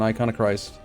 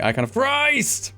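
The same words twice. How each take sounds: First: It is said flatly, without extra force. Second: It is said forcefully, with dramatic energy. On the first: The speaker calls it wrong. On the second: The speaker calls it right.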